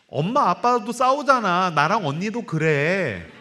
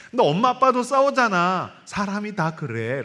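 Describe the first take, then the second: First: Lightly voiced child explaining to mom. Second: Put-on high child's voice, slowing at the end; lightly voiced child telling mom about dad. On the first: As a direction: plead slowly like a little girl. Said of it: "두 번째 말이". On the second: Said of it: "엄마, 엄마".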